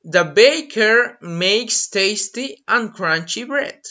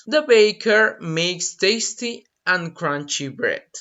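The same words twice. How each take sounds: First: Slow, clear example sentence; carefully paced demo line; slow model sentence. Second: Slow, clear echo of the sentence; unhurried repetition; slow repeat. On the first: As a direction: read it slowly for learners. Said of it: "So you can say". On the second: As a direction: repeat it slowly for the class. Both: Shown as a demonstration.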